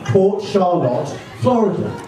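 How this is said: It is said in an English accent. "maybe it doesn't understand my English accent"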